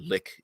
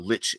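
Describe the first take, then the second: First: The word ends with a 'k' sound. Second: The word ends with a 'ch' sound. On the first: "if you want to pronounce it lick" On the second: "I prefer lich; seems a little more evil"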